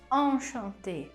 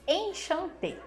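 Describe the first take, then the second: First: It is said with French nasal vowels. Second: It is read with Portuguese-style vowels. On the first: The speaker calls it right. "o som no francês é diferente, é nasal" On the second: The speaker calls it wrong. "É assim que a gente quer falar"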